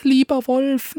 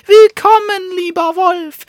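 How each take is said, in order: First: Pleading little dog. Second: High, loud mocking welcome; calling out. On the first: Acted. Little dog pleads with the wolf, high and coaxing. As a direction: coax the wolf in a tiny high voice. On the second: Dog on the roof calls loudly to the wolf. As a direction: shout "lieber Wolf" down from the roof, triumphant. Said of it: "lag auf einem Vordach und rief".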